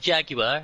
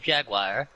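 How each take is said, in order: First: It is said with a British pronunciation. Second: It is said with a North American pronunciation. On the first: "you guys say Jaguar" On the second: "we say Jaguar"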